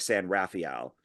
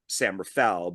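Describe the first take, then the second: First: It is said with a non-American pronunciation. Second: It is said with a plain American pronunciation. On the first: This is how the other person said the name. "but he said like San Rafael" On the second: This is how local Americans say the name. "we would just say San Rafael"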